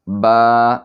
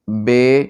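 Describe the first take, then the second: First: The letter name is said in Arabic style. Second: The letter name is said in Urdu style. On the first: The speaker calls it right. "अरबी लबो लहजा में पढ़ेंगे" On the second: The speaker calls it wrong. "ये उर्दू का अंदाज़ है, इस लहजा में नहीं पढ़ेंगे"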